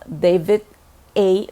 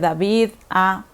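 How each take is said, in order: First: The initial A is said like English 'ay'. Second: The initial A is said like Spanish 'ah'. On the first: The speaker calls it right. "si lo vas a decir en inglés, pues es muy, muy adecuado que digas" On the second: The speaker calls it wrong. "En lugar de"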